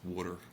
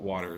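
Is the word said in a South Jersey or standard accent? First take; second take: South Jersey; standard. First: It is said in a South Jersey accent. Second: It is said in a standard accent.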